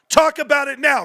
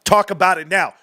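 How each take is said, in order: First: Repeated much higher and louder, triumphant; excited shout. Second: Said in the usual way. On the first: Real, not acted. Streamer taunting GameStop doubters, excited high shout. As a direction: throw it at the doubters, pitched way up.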